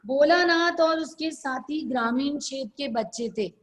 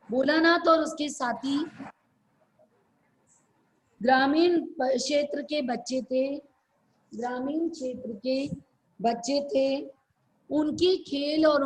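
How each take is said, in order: First: Quick run-through of the sentence; whole sentence in one quick breath; brisk dictation. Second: Phrase by phrase with long pauses; halting, spaced-out dictation; slower dictation. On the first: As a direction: read it straight through at a fast clip. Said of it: "इसको जल्दी जल्दी बोलते हैं". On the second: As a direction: break it up for students writing it down. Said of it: "फिर धीरे धीरे किसको बोलते हैं". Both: Real, not acted.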